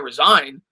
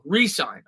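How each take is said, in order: First: "resign" with a z sound, as in quitting; misread as resign. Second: "Resign" split as REE-sign, with an s sound; corrected to re-sign. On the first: Real, not acted. Streamer misreading a viewer's question, "resign" with a z sound. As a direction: say "resign" as one word meaning quit. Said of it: "I read that wrong". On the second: Shown as a demonstration. Streamer correcting his misreading, "Resign" said as REE-sign. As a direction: say "Resign" as re-sign, meaning sign again. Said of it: "I read that wrong. Resign".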